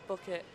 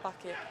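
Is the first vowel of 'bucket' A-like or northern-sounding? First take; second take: northern; A-like. First: The first vowel sounds like a northern u. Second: The first vowel sounds more like an a. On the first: The speaker calls it right. "If you're from the north, you say bucket, which is the correct way" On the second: The speaker calls it wrong. "If you're from the south, it's more like an A"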